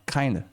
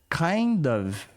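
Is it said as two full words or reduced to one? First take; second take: one word; two words. First: The words merge into one reduced word. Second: Both words are said fully and separately. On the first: "Pode ficar kinda na fala" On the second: "so, what kind of things? Kind of"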